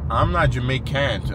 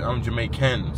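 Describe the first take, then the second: First: "Jamaican" said slowly as "Jamai-can't"; slow punning stress on the end of "Jamaican"; Jamai-can't wordplay. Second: "Jamaican" said as "Jamai-can"; punning answer with "can" closing "Jamaican"; Jamai-can wordplay. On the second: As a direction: end "Jamaican" on a clear "can". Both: Shown as a demonstration. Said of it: "so I make it work".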